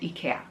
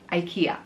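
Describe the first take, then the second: First: The name is said with a Swedish pronunciation. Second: The name is said with an American pronunciation. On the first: This is how Europeans and Swedes say it. "here we call it IKEA, like the Swedish people call it" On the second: This is how North Americans say it. "in the U S or North America, you pronounce IKEA"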